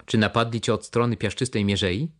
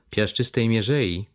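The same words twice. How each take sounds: First: Said in the usual way. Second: „Piaszczystej mierzei” drawn out slowly, falling at the end; slow musing repeat. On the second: Acted. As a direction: ponder „mierzei” slowly, as if recalling. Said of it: "powtórzył". (powoli, z namysłem powtórzone „Piaszczystej mierzei”)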